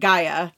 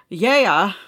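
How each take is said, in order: First: The name begins with a hard G sound. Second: The name begins with a Y sound. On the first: The speaker calls it wrong. "I would have pronounced it Gaia" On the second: The speaker calls it right. "According to the winemaker, it is pronounced Yaya"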